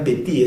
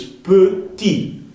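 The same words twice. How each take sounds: First: "petit" with Spanish E, peh-tee; wrong E sound. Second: "petit" as peu-tee, slow and higher; careful French "petit", peu in the first syllable; correct French E. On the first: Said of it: "no digan petit". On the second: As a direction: draw out "petit" with a rounded eu. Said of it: "es petit". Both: Shown as a demonstration.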